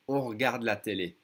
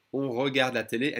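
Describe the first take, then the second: First: «on regarde la télé» as on r'garde la télé; swallowed E. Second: «on regarde la télé» with the first E of regarde sounded; unreduced E. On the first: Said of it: "E in second position is gonna be swallowed". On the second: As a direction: keep re as a syllable in «on regarde la télé». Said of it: "even more than that". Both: Shown as a demonstration.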